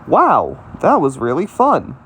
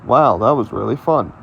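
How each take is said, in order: First: It is said as an excited exclamation. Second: It is said as a flat statement.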